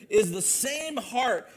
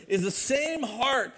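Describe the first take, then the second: No difference in how they are said.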